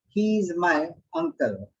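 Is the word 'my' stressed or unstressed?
unstressed. It is a plain statement without stress on 'my'.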